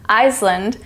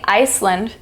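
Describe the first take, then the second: First: An S sound is heard in the middle. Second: An S sound is heard in the middle.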